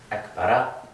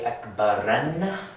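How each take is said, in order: First: The word ends on a short a vowel. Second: The word ends with an added n sound. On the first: The speaker calls it right. "That's how we would inflect that phrase properly" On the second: The speaker calls it wrong. "We would never say akbaran with tanween"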